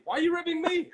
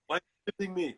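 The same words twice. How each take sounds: First: Very high, loud mock squeal; hammed-up comic indignation; high-pitched protest. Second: Thick Austrian action-star complaint; offended muscleman impression; Arnold Schwarzenegger. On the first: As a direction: throw it back in a squawk. Acted argument, throwing it back. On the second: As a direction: sound wounded in a heavy Austrian accent. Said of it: "then Schwarzenegger pops up".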